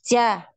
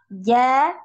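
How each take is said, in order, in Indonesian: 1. Konsonan itu dibuat dengan hembusan napas keluar. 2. Konsonan itu dibuat tanpa hembusan napas. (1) "itu biasanya ada udara yang mengalir" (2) "Ini tidak ada nafas"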